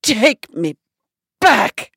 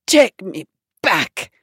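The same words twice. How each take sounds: First: Higher and louder repeated demand; the diva loses patience and raises her voice; louder, sharper Bette Davis insisting; Bette Davis, insistent. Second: Slow, understated grand-dame demand. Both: Retold or imitated. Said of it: "She goes".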